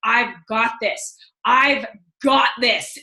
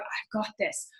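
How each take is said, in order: First: Slow, spaced-out "I've got this" with firm weight on each word; author's deliberate inflection. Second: Soft, understated self-affirmation; author's inflection. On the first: Reader copying the author's pauses, slow emphatic "I've got this". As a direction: draw out "I've", pause, then land "got this" firmly. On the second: Reader echoing the author's mantra, soft inflection. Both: Retold or imitated. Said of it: "that's exactly how he says it".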